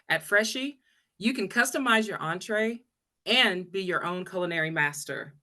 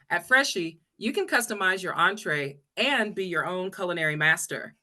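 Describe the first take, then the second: First: It is read at a slower pace. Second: It is read at a faster pace.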